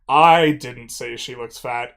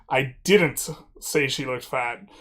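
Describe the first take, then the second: First: The word "I" carries the stress. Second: The word "didn't" carries the stress. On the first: Someone else said it. "implies that I didn't say she looked fat, but someone did" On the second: The speaker firmly denies saying it. "just strongly asserting that this is not something I did"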